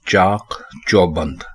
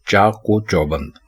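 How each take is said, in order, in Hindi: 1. दोनों शब्द बिना किसी जोड़ने वाली आवाज़ के आते हैं। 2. दोनों शब्दों को एक जोड़ने वाली 'o' आवाज़ जोड़ती है। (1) "दुरुस्त लफ्ज है" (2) "हमारे यहाँ इसको बोला जाता है"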